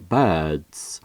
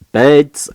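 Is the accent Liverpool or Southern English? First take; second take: Southern English; Liverpool. First: It is said in a Southern English accent. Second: It is said in a Liverpool accent.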